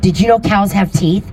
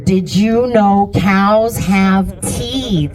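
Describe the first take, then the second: First: The question is said at a quicker pace. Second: The question is said at a slower pace.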